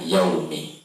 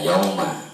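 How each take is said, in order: First: The word ends with an 'i' vowel. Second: The word ends with an 'a' vowel. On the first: The speaker calls it right. "seharusnya dibaca yaumi" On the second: The speaker calls it wrong. "tidak dibaca yauma"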